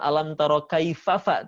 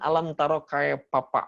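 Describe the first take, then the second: First: The consonant is pronounced as an f sound. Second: The consonant is pronounced as a p sound. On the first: The speaker calls it right. "bukan alam taro kaifafa" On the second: The speaker calls it wrong. "orang Sunda mah gitu kan"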